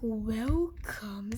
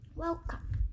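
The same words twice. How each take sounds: First: It is said in a very deep voice. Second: It is said in an ordinary voice. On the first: The speaker calls it right. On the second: The speaker calls it wrong.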